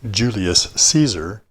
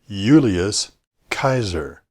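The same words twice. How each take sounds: First: It starts with J and has soft C. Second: It starts with Y and has hard K. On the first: The speaker calls it wrong. "it's not really Julius Caesar" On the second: The speaker calls it right. "but rather Julius Caesar. Latin doesn't have a soft C sound, and J is always pronounced as a Y"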